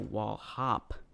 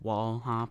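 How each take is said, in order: First: The stress falls on the second word. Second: The stress falls on the first word. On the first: The speaker calls it wrong. "I don't know why I emphasized the word hop" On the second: The speaker calls it right. "It should have been wall hop"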